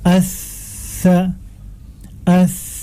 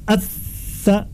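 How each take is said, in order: First: The consonant flows out softly and long. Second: The consonant is pressed hard and cut short. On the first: The speaker calls it right. "masa hurufnya dibaca dengan panjang" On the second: The speaker calls it wrong. "Tidak dibaca at-tha kuat misalnya sehingga dia akan tertahan"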